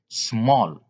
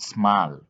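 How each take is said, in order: First: The vowel sounds like O. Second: The vowel does not sound like O. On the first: The speaker calls it right. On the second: The speaker calls it wrong.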